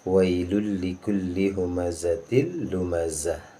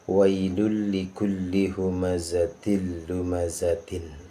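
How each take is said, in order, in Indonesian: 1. Kata terakhir berakhiran -ah lembut. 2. Kata terakhir berakhiran -tin penuh.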